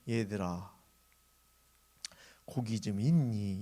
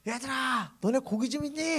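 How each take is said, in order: First: It is said at a normal, quiet volume. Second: It is shouted very loudly.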